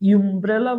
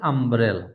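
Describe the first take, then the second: First: The word starts with a 'yoo' sound. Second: The word starts with an 'uh' sound. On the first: The speaker calls it wrong. "আমরা কি ইউমব্রেলা বলছি? না" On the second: The speaker calls it right. "এটা আমরা বলছি আমব্রেলা"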